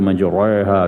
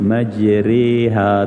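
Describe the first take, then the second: First: The r is thick, with an open a vowel. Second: The r is thin, vowel leaning toward i. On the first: The speaker calls it wrong. "tak boleh baca majraha begitu" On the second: The speaker calls it right. "dibaca dengan imalah yang dekat pada ya ... maka dibaca ra tu nipis"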